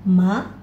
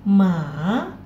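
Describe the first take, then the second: First: The pitch rises from middle to high. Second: The pitch dips down and then rises. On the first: "dua ini naik" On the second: "yang ketiga turun kemudian naik"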